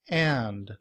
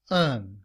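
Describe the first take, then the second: First: The word is said fully with a clear vowel and d. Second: The word is shortened to a weak un sound. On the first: "In citation form" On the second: "in reduced form, and is pronounced un"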